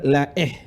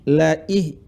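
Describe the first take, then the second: First: The vowel after la is an e sound. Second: The vowel after la is a clear i. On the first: The speaker calls it wrong. "bukan la eh" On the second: The speaker calls it right. "Huruf kasrah di hamzah"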